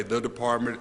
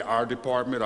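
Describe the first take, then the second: First: "the" set apart in "the department"; emphasize "the" as the rejected word; stress on THE. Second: "our" leaned on in "our department"; emphasize "our" to claim the department; stress on OUR. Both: Shown as a demonstration. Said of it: "I'm not gonna say the department".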